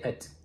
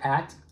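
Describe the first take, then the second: First: The word is said short and fast with a weak vowel. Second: The word is said fully with a clear vowel. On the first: "I reduced the sound. I said it faster, I made the sound shorter, and I also used the uh sound" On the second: "I pronounced it using the full pronunciation"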